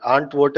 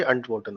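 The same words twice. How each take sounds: First: Antworten starting with a drawn "aant"; long opening a. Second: Antworten starting with a quick "unt"; short opening a. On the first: Teacher repeats the wrong way, antworten with long "aa". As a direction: lengthen the first a of antworten. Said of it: "antworten नहीं होगा". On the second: Teacher repeats the right way, antworten with short "a". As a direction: clip the first a of antworten short. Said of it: "ये antworten होगा". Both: Shown as a demonstration.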